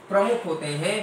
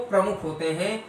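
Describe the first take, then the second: No difference in how they are said.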